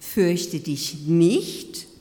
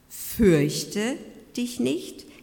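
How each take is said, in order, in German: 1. Die Betonung liegt auf dem Wort nicht. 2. Die Betonung liegt auf dem Wort Fürchte. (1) "hör doch auf, dich zu fürchten" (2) "im Sinne, hab keine Angst"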